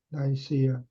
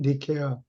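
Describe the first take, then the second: First: The name is said as Nai-si-a. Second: The name is said as Ni-ke-a. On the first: "영어 발음으로는" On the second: "그리스 발음으로는 니케아"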